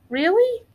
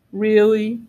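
First: Put-on high, rising child's question; Rex. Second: Low, level dinosaur reply; big dinosaur. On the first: Little dinosaur doubting dad's news, high rising question. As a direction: ask it in a small high voice. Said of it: "said Rex". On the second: Big dinosaur confirming to the youngster, low firm answer. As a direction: confirm it in a deeper creature voice. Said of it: "said the big dinosaur". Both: A narrator's reading.

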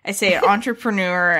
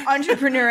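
First: Entrepreneur with a long drawn last syllable; own mispronunciation. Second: Entrepreneur, end ending in -nor; own mispronunciation. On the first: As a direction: show how you mangle entrepreneur. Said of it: "here's how I say this word". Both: Shown as a demonstration.

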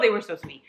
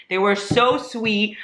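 First: Said in the usual way. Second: SO drawn out slowly with weight; stress on SO. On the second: Real, not acted. Praising two fans she met, SO stretched out slowly. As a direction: stretch the word "so" in heartfelt emphasis.

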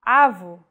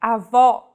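First: Avô stressed on the opening A, weak final vowel; stress on first vowel. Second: Avó with an open, stressed final O; open stressed vowel. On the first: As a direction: hit the A of avô, final O reduced to U. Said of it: "The stressed vowel now is the first one". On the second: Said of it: "stressed and pronounced with open pronunciation". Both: Shown as a demonstration.

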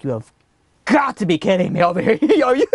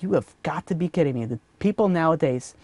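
First: Mock hysterical disbelief breaking into laughter; hysterical laughing. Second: Quiet disbelief. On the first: Traveler watching the stranger take another cookie, laughing in disbelief. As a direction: start held back, then crack up in disbelief. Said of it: "laughing hysterically". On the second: Acted. Traveler privately fed up with the cookie thief, quietly disbelieving. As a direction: grumble it softly under your breath.

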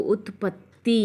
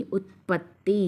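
First: ఉత్పత్తి with a held double త్త and a long final ఈ; stressed ఉత్పత్తి. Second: Said in the usual way. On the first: Shown as a demonstration. Teacher showing pupils the pressed త్త in ఉత్పత్తి. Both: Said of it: "ఇక్కడ ఒత్తి పలకాలి".

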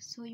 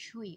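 First: সই begun with a hissing dental s; s sound in সই. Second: সই begun with a palatal sh; sh sound in সই. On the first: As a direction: say সই as "soi", with s instead of sh. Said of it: "আমরা সই বলি না". (সই-তে দন্ত্য স-এর উচ্চারণ) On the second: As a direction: say সই as "shoi", with sh as in "ship". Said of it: "তালব্য স উচ্চারণ করি". (সই-তে তালব্য শ-এর উচ্চারণ) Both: Shown as a demonstration.

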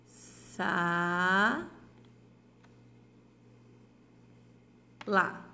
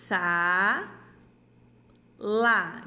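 First: Said in the usual way. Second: Each syllable called out loud and apart, with long pauses; teacher sounds out sa and lá loudly for the children, syllables called out; sounding out syllables. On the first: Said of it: "a gente vai escrever aqui". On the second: Shown as a demonstration. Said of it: "Então, vamos lá".

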